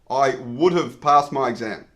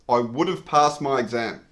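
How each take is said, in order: No difference in how they are said.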